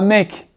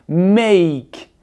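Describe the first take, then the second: First: The vowel is one plain sound, like French è. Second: The vowel glides from e to i. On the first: The speaker calls it wrong. "il se prononce pas mec" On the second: The speaker calls it right. "il se prononce make"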